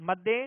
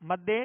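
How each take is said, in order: Both takes have the same delivery.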